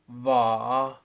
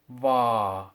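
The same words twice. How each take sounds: First: The pitch falls, then rises again. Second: The pitch falls and stays low. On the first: "and then I'll say it as a double fourth tone" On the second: "I'll say each one as a fourth tone"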